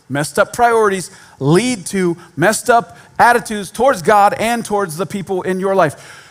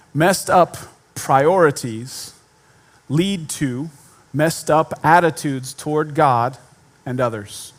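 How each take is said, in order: First: Said in the usual way. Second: Messed up priorities spaced out, each phrase given weight; slow deliberate stress. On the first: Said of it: "repeats the point at normal pace". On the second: Shown as a demonstration. Preacher stating his main point slowly to the church. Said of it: "slow emphatic statement of the point".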